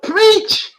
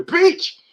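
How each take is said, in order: First: Much higher and louder, rising at the end; a loud, high rising cry to yourself; shouted preach to self. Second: High, loud cry of preach; a loud, high cheer from the congregation; shouted preach. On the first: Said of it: "I tell myself". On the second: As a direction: call it out like a church crowd urging on the preacher. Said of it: "People tell me". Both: Retold or imitated.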